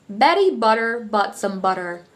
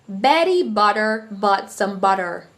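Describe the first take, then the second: No difference in how they are said.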